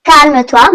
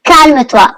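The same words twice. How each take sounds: The two takes are said the same way.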